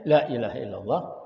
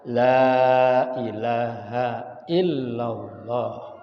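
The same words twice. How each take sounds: First: The vowel in 'la' is cut short. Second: The vowel in 'la' is held long. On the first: There truly is a god besides Allah. The speaker calls it wrong. "lamnya pendek" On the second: There is no god but Allah. The speaker calls it right. "Tapi kalau dibaca panjang"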